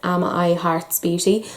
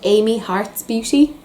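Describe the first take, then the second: First: The name begins like the words 'am I'. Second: The name begins like the name 'Amy'. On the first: The speaker calls it wrong. "I had been pronouncing this brand wrong for a while" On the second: The speaker calls it right. "she called it Amy Hearts Beauty, so that's that's what we're going with"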